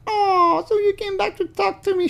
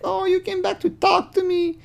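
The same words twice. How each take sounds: First: Very high, stressed "so" falsetto; high artificial girl voice. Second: Very high, fake-sweet falsetto; mock her sugary tone; high artificial girl voice. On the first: Retold or imitated. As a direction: put the weight on "so". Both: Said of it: "Again, very artificial".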